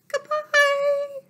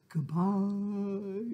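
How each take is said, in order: First: It is said in a very high voice. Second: It is said in a very low voice.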